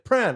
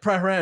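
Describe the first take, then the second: First: The name is said in a shortened form. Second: The name is said in its full form. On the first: This is how locals say it. "Over there it's pronounced Pran" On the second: This is how a visitor says it. "I was like"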